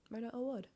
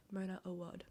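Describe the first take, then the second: First: Awad with a short "oo" in the last syllable, pitched higher; trying another pronunciation. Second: Awad with an open "ah" in the last syllable; trying a pronunciation. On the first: Reader testing an author's name in own accent, trying another pronunciation. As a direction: say Awad as "oh-WUUD", like "wood". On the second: Reader testing how to pronounce an author's name, trying a pronunciation. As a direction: say Awad as "oh-WAHD". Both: Shown as a demonstration. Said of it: "pronounce her name with my accent".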